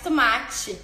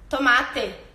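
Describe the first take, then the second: First: It is said with a northeastern Brazilian accent. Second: It is said with a rural southern accent, long final e. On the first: "No Nordeste é mais tomate" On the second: "mais pro interior do Rio Grande do Sul, tomate. O E bem puxado"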